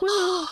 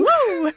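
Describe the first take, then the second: First: The cheer is weak and low in energy. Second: The cheer is strong and full of energy. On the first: The speaker calls it wrong. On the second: The speaker calls it right.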